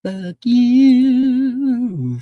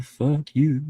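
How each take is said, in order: First: Loud mock yell. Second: Said in the usual way. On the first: Repeated insult, loud and high.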